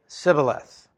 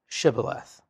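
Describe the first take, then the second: First: The word begins with an 's' sound. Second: The word begins with a 'sh' sound. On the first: The speaker is an Ephraimite. The speaker calls it wrong. "the men of Ephraim would say Sibboleth" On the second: The speaker is not an Ephraimite. The speaker calls it right. "say Shibboleth"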